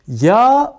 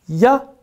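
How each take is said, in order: First: The vowel is said long. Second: The vowel is said short. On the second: "kısa"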